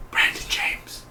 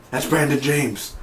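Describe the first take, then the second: First: Breathless whisper of the name, right after a gasp; shocked whisper. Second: Said in the usual way. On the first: Retold or imitated. Fan realizing the killer's identity, whispered. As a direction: hush it out like you just realized who it is. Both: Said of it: "I was like".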